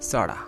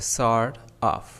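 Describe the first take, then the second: First: The words are run together into one reduced word. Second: Both words are said fully and separately.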